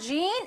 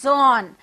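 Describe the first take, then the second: First: The name is said like English 'jeen'. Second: The name is said like 'zon'. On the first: The speaker calls it wrong. "It's not Jean" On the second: The speaker calls it right. "Jean is pronounced as Zon"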